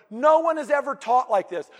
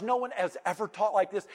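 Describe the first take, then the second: First: "No one" hit louder and higher, falling at the end; emphatic. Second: Said in the usual way. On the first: Shown as a demonstration. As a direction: punch "No" and drive the line home.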